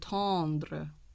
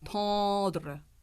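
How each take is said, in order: First: The tongue touches to articulate the N sound. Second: The N sound is not articulated at all. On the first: The speaker calls it wrong. "I heard tendre" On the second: The speaker calls it right. "Think T O D R"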